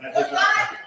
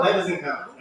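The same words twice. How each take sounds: First: "does not" pushed much higher, laughing; insist, laughing; emphatic, spelled-out repeat. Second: Said in the usual way. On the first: Real, not acted. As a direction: hit "does not" hard, splitting it into two words.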